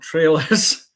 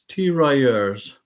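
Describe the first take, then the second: First: It sounds like the English word trailers. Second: It is said with a French-style pronunciation. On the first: The speaker calls it wrong. "it's not trailers" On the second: The speaker calls it right. "The French unit is pronounced Tirailleurs"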